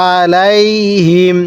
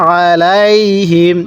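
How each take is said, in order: Both takes have the same delivery.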